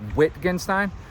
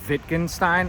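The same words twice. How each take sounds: First: The name begins with a W sound. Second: The name begins with a V sound. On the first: "It looks like Wittgenstein because it starts with a W" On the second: "I heard some cool guy call it Wittgenstein"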